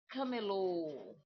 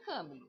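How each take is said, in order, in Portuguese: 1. A sílaba final é tônica. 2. A sílaba final não é tônica. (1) "Aonde que está o acento? No lo" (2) "não é camelo"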